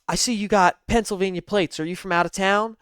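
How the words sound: It is said in a Clarice Starling accent.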